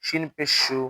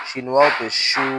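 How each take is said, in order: First: শু with a short u; no stretch. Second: শু with a long u; শু held long; stretched vowel. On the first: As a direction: cut the vowel of শু short. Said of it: "আমরা টান দিব না". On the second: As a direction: draw out the vowel of শু. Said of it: "ওয়াও থাকলে টান দিব". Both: Shown as a demonstration.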